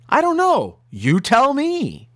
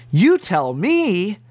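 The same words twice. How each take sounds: First: Mock quote, pitched high, drawn out at the end; high-pitched mocking report of someone's supposed words; retold divine reply. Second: Slow, weighty echo of the quote; incredulous repeat. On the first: Preacher retelling the Lord's supposed answer, high mock quote. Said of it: "the Lord said to him in a verbal voice". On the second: Real, not acted. Preacher echoing the supposed answer to his listeners, slow disbelief. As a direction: repeat it slowly, letting each word hang.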